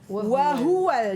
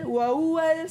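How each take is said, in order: First: Every letter is articulated clearly and distinctly. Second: The letters are run together without clear articulation. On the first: The speaker calls it right. "Sebenarnya oh, ... Jelaskan sebutan setiap huruf" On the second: The speaker calls it wrong. "Ramai orang baca wa huwal"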